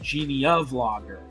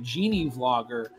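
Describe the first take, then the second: First: An extra 'a' vowel comes before 'vlogger'. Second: The first part runs straight into 'vlogger'. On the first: This is how many other people say it. "it kind of sounds like Genie, a vlogger" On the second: This is the channel owner's own pronunciation. "the way I pronounce it"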